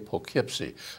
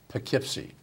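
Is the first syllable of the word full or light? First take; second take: full; light. First: The first syllable is a full, heavy 'poke'. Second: The first syllable is touched only lightly. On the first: The speaker calls it wrong. "you say Poughkeepsie. It's not Poke" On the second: The speaker calls it right. "it's Poughkeepsie. Just touch a little bit"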